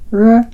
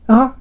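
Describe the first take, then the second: First: The tongue tip curls back toward the gum. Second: The sound vibrates at the back of the throat. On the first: "舌の先を丸めて上顎の歯茎に近づける音" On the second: "喉の奥を震わせる音"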